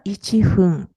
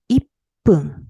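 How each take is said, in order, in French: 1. Le mot se dit 'ichi' puis 'fun'. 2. Le mot se dit avec un son 'pp' doublé. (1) "On ne dit pas ichi fun" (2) "on dit ippun"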